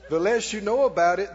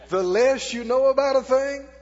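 First: It is said at normal speed. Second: It is said very slowly.

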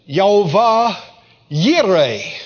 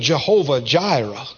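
First: The name begins with a Y sound. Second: The name begins with a J sound. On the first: This is how some scholars say it. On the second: This is the familiar everyday form.

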